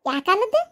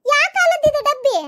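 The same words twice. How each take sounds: First: Said in the usual way. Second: Higher, louder scornful disbelief, stress on ಕಾಲದ್ದು. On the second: Acted. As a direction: shout ಕಾಲದ್ದು high in disbelief. Mocking the old lunchbox. (ಕಾಲದ್ದು ಮೇಲೆ ಜೋರಾದ ಅಚ್ಚರಿ)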